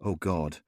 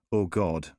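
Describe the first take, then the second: No difference in how they are said.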